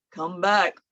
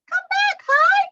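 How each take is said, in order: First: Lower, rumbling call. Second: Very high squeaky call. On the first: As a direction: say it down low. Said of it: "one named Low". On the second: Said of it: "the other named High". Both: Shown as a demonstration.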